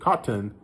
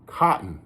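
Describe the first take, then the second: First: The middle T sound is clearly pronounced. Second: The middle T sound is dropped. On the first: "If you pronounce them button, cotton" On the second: "Like you don't pronounce the T's"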